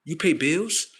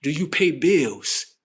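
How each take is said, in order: First: Said in the usual way. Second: "Do you pay bills?" said slowly, with weight on "pay"; pointed, slow wordplay delivery; slow, deliberate. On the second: Shown as a demonstration. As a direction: spell it out slowly so "pay bills" sounds like "be ill". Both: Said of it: "Pay attention".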